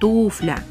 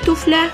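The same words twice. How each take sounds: First: The stress falls on the first syllable. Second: The stress falls on a later syllable. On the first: The speaker calls it right. "Правильно, конечно, «туфля». Ударение в этом слове ставится на первый слог" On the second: The speaker calls it wrong. "Чей туфля? Все помнят эту фразу из кинофильма"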